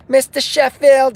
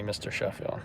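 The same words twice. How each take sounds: First: High, loud, drawn-out call; joke imitation of wife. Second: Said in the usual way. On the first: Wife calling her husband, high joking imitation. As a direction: call him slowly in a mock high voice. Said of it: "She doesn't call me Mister Sheffield".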